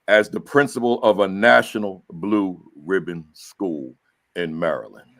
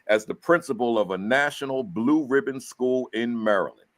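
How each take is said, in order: First: It is said with more force and emphasis. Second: It is said softly, without much force.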